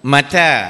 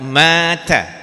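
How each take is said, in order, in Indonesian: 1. Vokal kedua panjang, yang pertama pendek. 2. Vokal pertama panjang, yang kedua pendek. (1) "Ta yang panjang" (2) "ma yang panjang, ta yang pendek"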